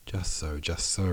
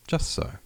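First: Echoing mother. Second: Lightly voiced daughter, pitched high; a light, high little explanation; young daughter. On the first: Mother repeating her daughter's words, lightly voiced echo. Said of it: "repeated the Countess". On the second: Daughter explaining herself to her mother, lightly voiced. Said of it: "she added". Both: A narrator's reading.

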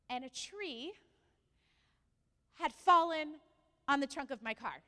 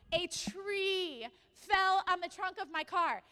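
First: "and a tree", long pause, "had fallen", pause, then the rest; suspenseful pauses. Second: Loud and slow, "tree" stretched out high; incredulous emphasis. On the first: Speaker revealing her bad luck to the congregation, pausing for suspense. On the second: Speaker insisting to congregation she's not lying, loudly incredulous. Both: Retold or imitated.

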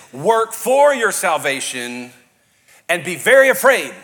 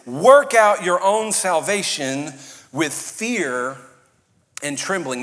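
First: Slow, loud, stress on for; a loud turn-or-burn warning, mock version; mock fire-and-brimstone. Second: Slow, loud, every word weighted; preached slowly with full force; emphatic scripture. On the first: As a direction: ham up a scary preacher. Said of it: "we've heard it like this". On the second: Shown as a demonstration. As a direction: lean hard on work out your own salvation. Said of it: "watch this".

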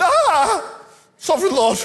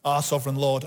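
First: High, loud, hammed-up cry of protest; dismayed wail. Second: Said in the usual way. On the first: Shown as a demonstration. Preacher acting Jeremiah answering God's call, hammed-up dismayed wail. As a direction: wail it out in mock despair at God. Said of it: "I think he went". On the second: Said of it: "I don't think he said that".

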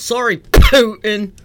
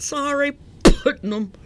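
First: "Putin" with a loud, exploding P; slow "Sorry", then spit out "Putin" hard; spat-out P. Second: "Putnam" with an extra m at the end; name mispronounced. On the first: Co-host correcting himself on "Putin", over-popped P. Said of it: "I just spit all over the microphone". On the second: Co-host botching the president's name "Putnam", mispronounced. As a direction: say "Putnam" in place of Putin, popped out loud. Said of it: "It's Putin". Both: Real, not acted.

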